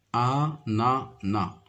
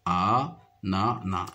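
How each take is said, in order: First: "Ananas" drawn out slowly, syllable by syllable. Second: "Ananas" said slowly, each syllable held apart. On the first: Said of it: "il se compose de trois syllabes". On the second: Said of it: "Chaque syllabe contient la lettre A". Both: Shown as a demonstration. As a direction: spell "Ananas" out slowly for the child.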